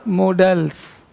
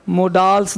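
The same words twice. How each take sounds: First: "मोडल्स" with a short schwa, mo-dəls; right pronunciation. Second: "मोडाल्स" with a long aa, marked as wrong; wrong pronunciation. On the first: Teacher giving the right form: "मोडल्स" with short schwa. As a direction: clear corrective "मोडल्स", no long aa. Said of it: "क्या है?". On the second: Teacher showing the wrong way: "मोडाल्स" with long aa. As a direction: say "मोडाल्स" stretching the aa. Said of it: "मोडाल्स नहीं". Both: Shown as a demonstration.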